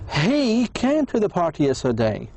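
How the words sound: The word he is stressed. It was this person, not someone else. "So I, w I focused on he. It was him, not someone else"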